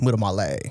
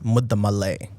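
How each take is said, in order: First: It is said with an Italian accent. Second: It is said with a Telugu Indian accent. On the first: "there's like an Italian way" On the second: "the Telugu way of saying it"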